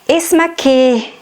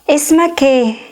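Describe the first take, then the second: Both takes have the same delivery.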